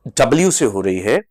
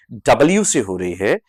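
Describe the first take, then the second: No difference in how they are said.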